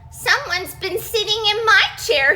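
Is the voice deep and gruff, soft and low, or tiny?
tiny. A teeny tiny Baby Bear voice cries it.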